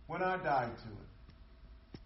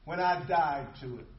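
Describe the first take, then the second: First: Slow, softened, weighty restatement; quiet reflective repeat. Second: Said in the usual way. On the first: Shown as a demonstration. Preacher repeats the point to the congregation, slow and hushed. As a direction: let it sink in slowly and softly.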